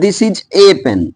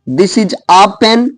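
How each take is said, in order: First: The article is said like 'ay'. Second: The article is said like 'ah'. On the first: "कुछ लोग बोलते हैं this is ए pen" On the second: "कहीं पर ए को आ बोला जाता है"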